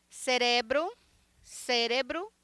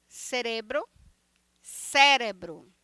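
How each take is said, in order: No difference in how they are said.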